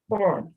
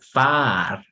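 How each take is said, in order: First: The vowel is said with the mouth more closed. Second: The vowel is said with the mouth wide open. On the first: The speaker calls it right. "But you don't say like that. You say" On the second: The speaker calls it wrong. "If you open your mouth more, no suena bien. Sería far"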